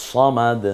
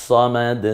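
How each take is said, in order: The two takes are said the same way.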